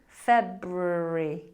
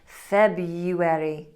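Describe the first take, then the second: First: An R sound follows the B. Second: A Y sound follows the B. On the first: The speaker calls it right. "You have to really make sure you're pronouncing that R after the B" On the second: The speaker calls it wrong. "we put a liquid Y sound in there"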